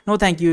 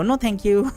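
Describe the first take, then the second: First: It is said in a normal male voice. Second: It is said in a high falsetto voice.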